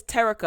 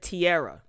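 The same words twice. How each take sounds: First: Terica said TEH-rih-kah, stress on the first syllable; Terica, the correct pronunciation. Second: Tierra said tee-AIR-ah, stress on the second syllable; Tierra, the mispronounced version. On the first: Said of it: "I think I said Tierra or Terra". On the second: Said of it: "like I said". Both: Shown as a demonstration.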